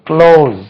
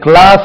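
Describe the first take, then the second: First: The vowel sounds like the one in close. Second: The vowel sounds like the one in class. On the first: The speaker calls it right. "க்ளோஸ் என்று உச்சரிக்கணும்" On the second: The speaker calls it wrong. "கிளாஸ் என்று உச்சரிக்க கூடாது"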